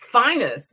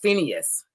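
First: The name is said in two short syllables. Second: The name is said in three syllables. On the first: This is how the man himself said his name. "he pronounced it Finus" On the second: This is the common way the name is said. "I think they pronounce it like in the cartoons, it's pronounced Phineas"

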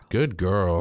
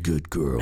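First: It is said in a normal voice. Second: It is said in a deep, throaty voice.

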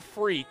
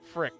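First: The vowel is long, like in 'freak'. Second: The vowel is short, like in 'frick'. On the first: The speaker calls it wrong. "it's not Freak" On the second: The speaker calls it right. "It's Frick"

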